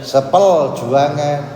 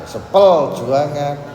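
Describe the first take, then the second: Both takes have the same delivery.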